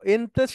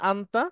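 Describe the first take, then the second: First: It is said with front e vowels. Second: It is said with open a vowels. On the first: "ওটা ওইখানে এনতে বলে" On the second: "আমরা যেটা শিখেছি আনতা"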